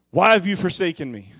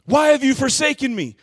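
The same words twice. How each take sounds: First: A louder, higher echo of the cry; restrained anguished cry. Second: Much higher and louder cry of abandonment; loud desperate plea; anguished cry. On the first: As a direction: call out the question again, less intense. Cry recalled, less force. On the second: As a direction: shout the question to heaven. Cry repeated at climax. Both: Acted.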